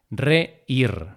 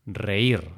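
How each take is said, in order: First: "Reír" split as re, ír; syllable by syllable. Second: Said in the usual way. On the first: Shown as a demonstration. Teacher showing learners the hiato, syllable by syllable. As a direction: pause inside "Reír" before ír. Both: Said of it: "para marcar ese hiato".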